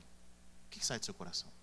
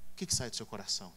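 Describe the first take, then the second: First: Whispered searching question. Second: Said in the usual way. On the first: Shown as a demonstration. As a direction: drop to a whisper to draw them in. Preacher repeats the question. (pergunta sussurrada)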